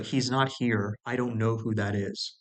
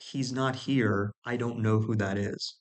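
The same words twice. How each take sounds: First: Said in the usual way. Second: Slowed right down, every word laid out; slow deliberate repeat. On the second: Shown as a demonstration. Repeating his phone reply slowly to make a point. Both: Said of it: "let me repeat that".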